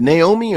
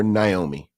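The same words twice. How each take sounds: First: "Naomi" said nay-OH-mee; first syllable NAY. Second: "Naomi" said nigh-OH-mee; first syllable NIGH. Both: Shown as a demonstration. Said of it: "is it Naomi or Naomi?".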